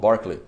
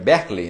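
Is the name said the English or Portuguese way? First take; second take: English; Portuguese. First: It is said with English sounds. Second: It is read out with Portuguese sounds. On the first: "lá eles falam Berkeley" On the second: "Escreve Berkeley"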